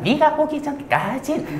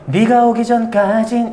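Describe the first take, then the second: First: It is said in a strained, pressed voice. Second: It is said in a relaxed voice.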